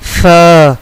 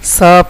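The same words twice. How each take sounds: First: The first sound has the tongue tip at the teeth. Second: The first sound is a plain hissed s. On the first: The speaker calls it right. "ज़बान की नोक ... ऊपर वाले दांतों की अंदरूनी किनारे से अदा होगा" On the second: The speaker calls it wrong. "सा पढ़ना गलत है"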